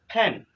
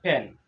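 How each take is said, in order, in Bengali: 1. p ধ্বনিটি ফুৎকার সহ বলা হয়। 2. p ধ্বনিটি ফুৎকার ছাড়া বলা হয়। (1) "This sound is pen" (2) "not pen"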